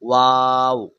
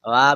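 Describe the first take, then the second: First: The name ends with a w sound. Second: The name ends with a breathy h sound. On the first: The speaker calls it right. "Copy करो मुझे" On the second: The speaker calls it wrong. "वाह भी नहीं बोलना"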